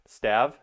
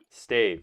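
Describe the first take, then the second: First: The vowel is a short a. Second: The vowel is a long a.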